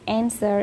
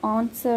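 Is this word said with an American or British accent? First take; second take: American; British. First: It is said with an American pronunciation. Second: It is said with a British pronunciation. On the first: "in America" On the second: "in British"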